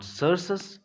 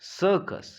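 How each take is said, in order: First: The first c is s, the second c is s. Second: The first c is s, the second c is k. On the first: The speaker calls it wrong. "It is not सर्सस" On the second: The speaker calls it right. "That is why it is सर्कस"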